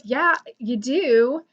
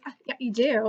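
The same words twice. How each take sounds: First: Slow, drawn-out imitated contradiction; retold insistence. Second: Retold contradiction. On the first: Fan arguing back at the YouTuber, slowly insistent. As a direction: stretch it out to insist, mimicking him. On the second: Fan arguing back at the YouTuber, mildly contradicting. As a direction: casually insist after a small hedge. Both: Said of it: "we went back and forth".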